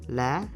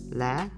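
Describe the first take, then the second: The two takes are said the same way.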